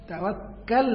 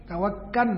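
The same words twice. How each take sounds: First: "ตะวักกัล" ending on a clear l, not n; Arabic final L. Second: "ตะวักกัน" ending in an n sound; local Thai pronunciation. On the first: Teacher showing the Arabic reading, "ตะวักกัล" with final l. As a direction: hold the lam at the end of "ตะวักกัล". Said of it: "ตัวลามนี่อ่านเป็นนูน". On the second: Teacher quoting how locals say it, "ตะวักกัน" with final n. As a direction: say "ตะวักกัน" with final lam turned into nun. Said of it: "บ้านเราก็จะใช้ตะวักกัน". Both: Shown as a demonstration.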